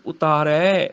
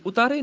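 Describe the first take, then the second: First: ਉਤਾਰੈ ending in drawn-out open ai; correct vowel shown. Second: ਉਤਾਰੇ higher, ending in close e; wrong vowel shown. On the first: Teacher correcting the reading, ਉਤਾਰੈ with ai. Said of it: "ਰਾਰੇ ਨੂੰ ਦੁਲਾਵਾਂ ਨੇ". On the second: Teacher showing a misreading, ਉਤਾਰੇ with close e. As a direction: end ਉਤਾਰੇ on narrow ay. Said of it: "ਉਤਾਰੇ ਨਹੀਂ". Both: Shown as a demonstration.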